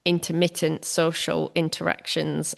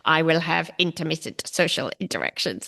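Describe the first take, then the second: First: Said in the usual way. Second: Flat, even robot voice reading "intermittent social interactions"; each syllable of "intermittent" read evenly like a machine. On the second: Shown as a demonstration. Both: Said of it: "I sound like a robot now".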